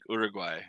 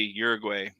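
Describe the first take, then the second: First: The name is said with a Spanish pronunciation. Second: The name is said with an American English pronunciation. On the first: The speaker calls it right. "it's like Uruguay or something, right? Like technically speaking" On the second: The speaker calls it wrong. "I always want to say Uruguay"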